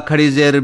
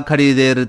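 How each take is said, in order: Both takes have the same delivery.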